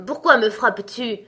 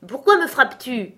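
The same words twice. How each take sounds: First: Louder, gruff giant demanding why; lightly voiced annoyed giant; grumpy giant. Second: Higher, louder, changed giant voice; a riled giant bellowing at his companion; angry giant shout. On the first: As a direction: accuse him like a sleepy brute. Woken giant accuses companion. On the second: Acted. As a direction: roar the accusation like a riled giant. Second giant shouts accusation.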